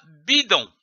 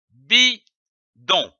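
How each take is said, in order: First: Said in the usual way. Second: "bidon" in two separate syllables, pause between; split into syllables. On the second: Shown as a demonstration. Teacher joining syllables for learners, "bidon" broken in two. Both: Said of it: "L'association de ces syllabes".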